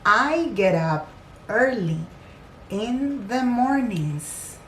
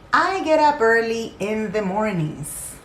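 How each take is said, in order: First: It is said slowly. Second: It is said quickly.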